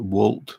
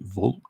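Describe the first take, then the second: First: The word begins with a W sound. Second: The word begins with a V sound. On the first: This is the speaker's own way of saying it. "I call it Wolt" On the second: This is how local people say it. "the Danes pronounce it Volt"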